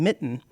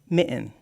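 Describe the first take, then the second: First: The middle T is clearly released. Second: The middle T becomes a glottal stop pause. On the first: "instead of saying mitten" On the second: "they say mitten, ... It's a distinct pause"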